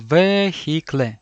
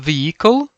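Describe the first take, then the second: First: Every letter is sounded out as written. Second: It is said with its usual English sounds.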